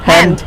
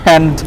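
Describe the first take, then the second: Both takes have the same delivery.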